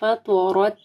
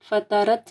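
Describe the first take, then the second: First: The ta and ra sounds are thick and heavy. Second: The ta and ra sounds are thin and light. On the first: The speaker calls it right. "تو کو موٹا پڑھنا ہے اور رو کے اوپر زبر ہے, رو بھی موٹی پڑھی جائے گی" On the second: The speaker calls it wrong. "فطرت نہیں پڑھنا"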